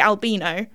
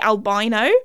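First: The word has a British pronunciation. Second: The word has an American pronunciation. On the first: "But in the UK, I swear, you say albino" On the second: "in America, you guys say albino"

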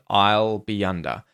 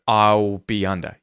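First: The L is a clear, light L sound. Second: The L is a dark, rounded ooh-like sound. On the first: "I was saying these with the light L" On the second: "you can use the dark L as well"

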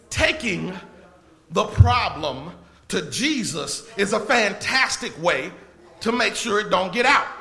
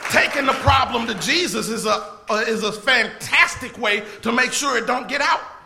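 First: It is said more slowly. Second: It is said at normal speed.

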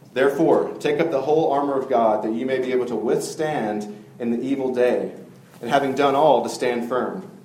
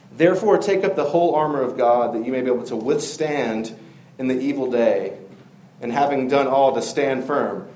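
Both takes have the same delivery.

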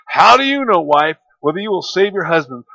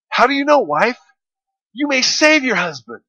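First: It sounds doubtful and pessimistic. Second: It sounds hopeful and optimistic.

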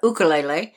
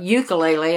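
First: The word is said the Hawaiian way. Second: The word is said the common mainland way. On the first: The speaker calls it right. "I have to say it correctly since I've lived in Hawaii. It's a ukulele" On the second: The speaker calls it wrong. "It's not a ukulele"

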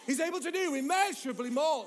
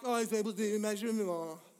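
First: It is said with strong, emphatic conviction. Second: It is said in a casual, offhand way.

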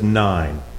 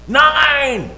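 First: It is said at normal volume. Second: It is said loudly.

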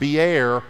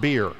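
First: The word is said unlike the drink beer. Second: The word is said like the drink beer. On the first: It names the place with the well. The speaker calls it right. "It is pronounced Beer" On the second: It names the alcoholic drink. The speaker calls it wrong. "not beer. Do not say that there's a well in the Bible that's full of beer"

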